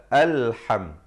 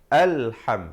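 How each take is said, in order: Both takes have the same delivery.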